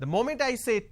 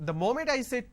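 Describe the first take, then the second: The two takes are said the same way.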